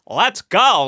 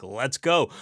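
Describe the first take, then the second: First: Loud, high, hammed-up accent of a bold aviator; Amelia Earhart's imagined accent. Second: Said in the usual way. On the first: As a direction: put on a badly faked accent, pitched up and loud. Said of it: "what I assume her accent sounds like".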